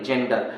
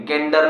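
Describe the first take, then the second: First: जेंडर starting with a J sound; soft G. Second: गेंडर starting with hard G; mispronounced hard G. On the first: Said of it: "जेंडर पढ़ेंगे". (जेंडर, शुरू में ज की आवाज़) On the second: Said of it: "गेंडर नहीं". (गेंडर, शुरू में ग की आवाज़) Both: Shown as a demonstration.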